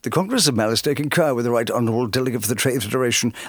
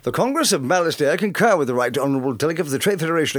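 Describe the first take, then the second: First: The voice is pitched lower. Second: The voice is pitched higher.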